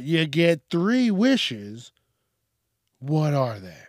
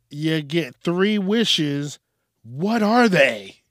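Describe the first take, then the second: First: Said in the usual way. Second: Loud, slow, drawn-out question; big announcer read. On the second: Acted. Reading the last question to the audience, big announcer delivery. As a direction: boom it out slowly like a host.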